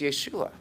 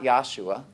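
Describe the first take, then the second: First: The first syllable sounds like 'yeh'. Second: The first syllable sounds like 'yah'. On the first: The speaker calls it right. "it's Yeshua" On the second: The speaker calls it wrong. "It's not Yahshua"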